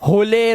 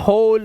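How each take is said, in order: First: The word ends with an extra e vowel. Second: The word ends on the final l sound. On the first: The speaker calls it wrong. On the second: The speaker calls it right.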